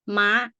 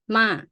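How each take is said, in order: First: The pitch is high and goes up. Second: The pitch starts high and drops. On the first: "high tone it go like you know you see it goes straight up high" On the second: "falling is sound like you go up high and then you put it low"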